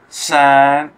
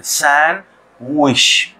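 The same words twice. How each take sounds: First: सैंड said louder, with the D sounded; the mistaken सैंड with a hard D; wrong pronunciation. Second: सैंडविच said very slowly, D silent; correct pronunciation. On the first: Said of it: "इसको सैंड ना पढ़ें". (सैंड को ड के साथ, ग़लत तरीके से) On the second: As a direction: stretch सैंडविच out, dropping the D. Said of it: "डी जो है साइलेंट है". (सैंडविच बहुत धीरे से, ड silent) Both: Shown as a demonstration.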